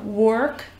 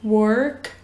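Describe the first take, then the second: First: It is said with an American accent. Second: It is said with an American accent.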